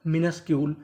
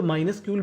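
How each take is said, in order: First: मिनस्क्यूल with a short "mi" first syllable; correct pronunciation. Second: माइनस्क्यूल with a "my" first syllable; alternative pronunciation. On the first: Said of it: "इसका सही उच्चारण क्या होगा". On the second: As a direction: open माइनस्क्यूल on a long "ai" sound. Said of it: "माइनस्क्यूल भी बोल सकते हैं". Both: Shown as a demonstration.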